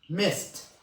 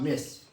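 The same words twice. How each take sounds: First: The final T sound is strongly pronounced. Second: The final T sound is weak or dropped. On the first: The speaker calls it right. "all these letters must be stressed" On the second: The speaker calls it wrong. "It is not mist"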